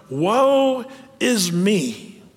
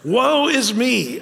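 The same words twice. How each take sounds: First: Very slow mock lament; drawn-out lament. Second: Higher, very slow, hammed-up woe; theatrical mournful cry; prophet's lament. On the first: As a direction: stretch it into a very slow, mournful woe. Quoting the prophet's lament. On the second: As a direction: wail it like an Old Testament prophet. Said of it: "does he sound like someone else?".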